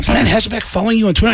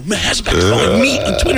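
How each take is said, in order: First: Fast, high question with "you" in disbelief; incredulous question. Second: Fast, high, insistent "me", rising at the end; excited confirmation. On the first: Friend doubting the news about "you", incredulous question. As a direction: ask quickly about "you", pitched up, incredulous. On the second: Comedian confirming to friend it's "me", excited confirmation. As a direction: confirm it's "me" in a giddy rush. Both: Retold or imitated.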